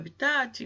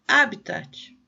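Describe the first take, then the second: First: The stress is on the last syllable. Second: The stress is on the first syllable. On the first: The speaker calls it wrong. "a gente fala" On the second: The speaker calls it right. "essa palavra tem acento no primeiro A"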